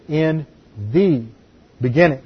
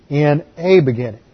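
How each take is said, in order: First: "the" set apart between pauses, pronounced thee; single out "the" as its own beat; stress on THE. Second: "a" said as a full ay; stress on A. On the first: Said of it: "translates it with a definite article". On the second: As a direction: lean on "a", pronounced ay. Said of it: "is indefinite". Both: Shown as a demonstration.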